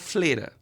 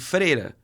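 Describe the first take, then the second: First: The first syllable has an l sound. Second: The first syllable has an r sound. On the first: The speaker calls it wrong. "Eu falava uma palavra errada" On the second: The speaker calls it right. "Ao invés de freira"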